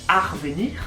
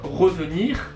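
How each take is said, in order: First: The word begins with an 'ar' sound. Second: The word begins with an 're' sound. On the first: This is how it is said in the Pas-de-Calais. "quand tu es dans le Pas-de-Calais" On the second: This is the standard form. "si tu veux dire le verbe revenir"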